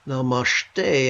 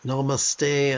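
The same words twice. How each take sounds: First: "namashte" with an sh sound in place of the s; "namashte" as pronounced in other Indian states. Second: "namaste" with a plain s sound, na-ma-STAY; "namaste" as pronounced in some Indian states. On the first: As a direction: say "namashte", softening s to sh. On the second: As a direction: say "namaste" with a clean s in the middle. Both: Shown as a demonstration. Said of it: "many ways of pronouncing the same word".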